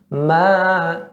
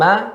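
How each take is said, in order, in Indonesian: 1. Vokalnya ditahan selama tiga ketukan. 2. Vokalnya ditahan selama satu ketukan pendek. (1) "ma itu jadi tiga" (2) "ma satu harakat"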